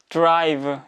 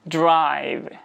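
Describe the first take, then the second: First: It is said with a Korean-style pronunciation. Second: It is said with a native English pronunciation. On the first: The speaker calls it wrong. "국어식으로 발음을 하게 되면 약간 이런 식으로 발음하죠" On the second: The speaker calls it right. "영어로 발음을 하게 되면"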